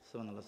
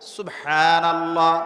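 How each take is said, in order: First: It is said fast and mumbled. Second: It is said slowly and clearly.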